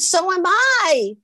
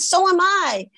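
First: High, slow, singsong reply; exaggerated retold enthusiasm; drawn-out perky echo. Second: High, eager chime-in; retold girlish enthusiasm; perky echo. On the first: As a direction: stretch it out with eager delight. Other girl's reply, repeated slower. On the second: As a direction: pipe up with delighted coincidence. Acts the other girl's excited reply.

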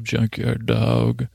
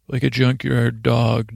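First: Drawn-out nickname. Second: Said in the usual way. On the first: Retold or imitated. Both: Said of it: "that's what I call him".

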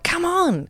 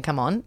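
First: Higher, exasperated parental "come on"; mock a hurried parent's call; impatient come on. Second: Said in the usual way. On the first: Mum turning to her son to hurry him, impatient. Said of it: "to do the old, "Come on". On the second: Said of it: "I don't even know why I was saying".

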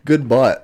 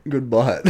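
First: Real laugh through good bite; good bite broken by laughter. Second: Said in the usual way. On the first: Real, not acted. Laughing at friend's joke.

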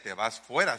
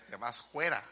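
First: Said in the usual way. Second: Rustic accent with a throaty j opening "fuera"; rustic accent, "juera". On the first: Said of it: "No decía". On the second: Shown as a demonstration. Preacher shows brother's accent, "fuera" said as "juera". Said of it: "su acento así fuerano, ¿verdad? No decía".

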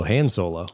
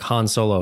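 First: Han rhyming with "hand", HAN Solo; flat-vowel Han. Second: Han with "ah", HAHN Solo; broad-vowel Han. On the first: Podcaster comparing two pronunciations, Han with short a. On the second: Podcaster comparing two pronunciations, Han as HAHN. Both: Shown as a demonstration. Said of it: "more specifically, it's like".

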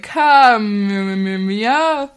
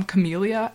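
First: "Camellia" mumbled away after the first sound, long drawn out; mock someone slurring "Camellia" into a long vague hum; trailing off. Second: Said in the usual way. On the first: Imitating people who won't finish her name, "Camellia" trailing off into a mumble. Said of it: "just kind of trail off". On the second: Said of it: "when people just kind of trail off".

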